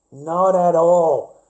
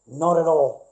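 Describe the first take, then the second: First: "Not at all" drawn out slow and much louder, leaning on "Not"; a loud, slow, final "Not at all"; emphatic denial. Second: Said in the usual way. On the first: Real, not acted. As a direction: hammer each word of "Not at all" slowly and loudly. Repeats denial, second time emphatic.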